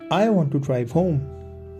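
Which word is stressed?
none. No word is given special stress. A plain statement of wanting to go home. "this is a neutral speech"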